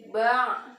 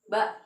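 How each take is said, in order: First: The final sound is held and drawn out. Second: The final sound is cut off short. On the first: The speaker calls it right. "yang seharusnya ba" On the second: The speaker calls it wrong. "tapi ini malah ba ... itu salah"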